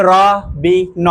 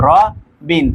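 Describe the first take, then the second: First: "র বি ন" as three pieces, ro, bi, no; final n cut off as its own syllable in "র বি ন"; wrongly split sounds. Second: "র বিন" as ro, then bin in one piece; correct two-syllable split. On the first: Teacher showing students a wrong division, "র বি ন" piece by piece. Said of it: "ন তো আলাদা আলাদা উচ্চারণ করা যেতেছে না". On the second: Teacher showing students the right division, "র বিন" in two syllables. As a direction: pause after "র", keep "বিন" joined. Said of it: "বিনটাকে একসাথে উচ্চারণ করতে হবে". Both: Shown as a demonstration.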